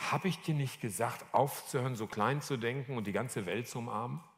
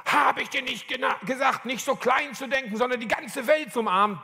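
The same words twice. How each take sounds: First: Soft, restrained reproach; understated, gentle admonishing; gentle reminder. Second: High, forceful rebuke; hard-hitting admonishment, pitched way up; rock-hard voice. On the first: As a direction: quietly remind someone of what they were told. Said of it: "Das war so ein ganz sensibler Moment". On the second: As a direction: deliver it as a hard, sudden command. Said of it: "mit einer knallharten Stimme". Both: Retold or imitated.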